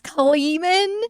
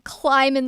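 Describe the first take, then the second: First: The first vowel sounds like 'ee'. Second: The first vowel sounds like 'eye'. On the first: This is the more accurate pronunciation. The speaker calls it right. "it's Kleeman" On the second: This is how the speaker wrongly assumed it was said. The speaker calls it wrong. "in my head I was calling him Kleiman the whole time"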